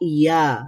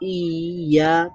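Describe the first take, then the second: First: The opening i sound is short and quick. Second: The opening i sound is drawn out, adding a sound. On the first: The speaker calls it right. "এখন দুইটাকে একসাথে যদি মিলাই তাহলে কি হবে?" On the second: The speaker calls it wrong. "সাথে আরেকটা ই মিলাই তাহলে হবে"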